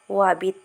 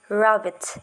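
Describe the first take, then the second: First: The word begins with a W sound. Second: The word begins with an R sound. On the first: The speaker calls it wrong. "instead of wabbit" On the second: The speaker calls it right. "say the I sound to say rabbit"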